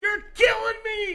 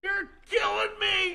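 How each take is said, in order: First: High, loud yell of "You're killing me!"; boisterous mock-agonized yell from a foot and a half back. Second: High, slow, loud yell of "You're killing me!"; boisterous drawn-out yell for effect. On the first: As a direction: belt it out for effect across the room. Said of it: "Say something loud and boisterous". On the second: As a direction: belt it out again, drawing out the words. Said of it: "Do it again and watch the lights". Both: Shown as a demonstration.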